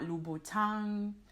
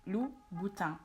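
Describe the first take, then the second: First: The final N sound is pronounced. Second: The final N sound is silent. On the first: The speaker calls it wrong. "It's not Louboutin" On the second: The speaker calls it right. "the N at the end of the word is not pronounced"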